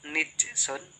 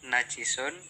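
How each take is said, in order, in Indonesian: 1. Huruf n memakai i dan huruf j tidak ada. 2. Huruf n memakai a dan huruf j memakai i. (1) "keempat nijsun" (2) "Pertama najisun"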